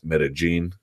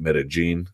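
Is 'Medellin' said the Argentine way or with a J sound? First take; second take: J sound; J sound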